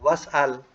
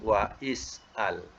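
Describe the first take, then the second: First: The 'wa' runs straight into the verb. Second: The 'wa' is kept apart from 'is'al'. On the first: "Kalau kita nak sa- nak sambung" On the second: "tapi kalau nak dipisahkan"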